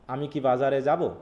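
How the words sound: It has a flat statement intonation. The speaker calls it wrong.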